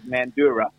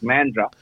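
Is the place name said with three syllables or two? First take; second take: three; two. First: The name is said in three full syllables. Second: The name is squeezed into two syllables. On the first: This is how an outsider with a South African accent says it. "with a South African accent, it was Mandurah" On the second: This is how the name is properly pronounced. "which is pronounced Mandra"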